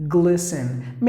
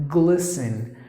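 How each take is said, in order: The two takes are said the same way.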